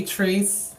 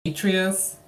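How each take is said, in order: First: Atreus in two syllables, AY-trees; variant pronunciation of Atreus. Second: Atreus in three syllables, AY-tree-us; alternative pronunciation of Atreus. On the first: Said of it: "had trouble pronouncing the name". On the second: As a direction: say Atreus as AY-tree-us, higher, with a separate "us". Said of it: "people might say Atreus or". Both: Shown as a demonstration.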